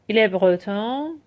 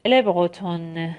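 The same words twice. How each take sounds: First: 'برتون' ending in a nasal vowel, no n, slowly; slow model, nasal vowel closing 'برتون'. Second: 'برتون' with the final n clearly sounded, slowly; slow model, pronounced n closing 'برتون'; full final n. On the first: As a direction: let the end of 'برتون' go into the nose. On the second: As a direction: finish 'برتون' on a released n. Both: Shown as a demonstration.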